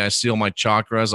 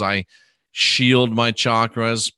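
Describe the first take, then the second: First: Said in the usual way. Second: Slow affirmation. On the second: Shown as a demonstration. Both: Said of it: "then I'd say".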